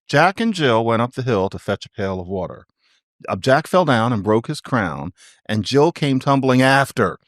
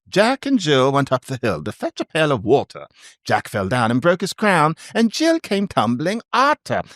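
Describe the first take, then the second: First: It is said in the speaker's plain accent. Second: It is said in a put-on dialect accent.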